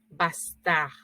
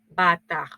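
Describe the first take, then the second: First: It is said with an s after the a. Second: It is said without an s after the a. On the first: The older form of the word. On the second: The modern form of the word.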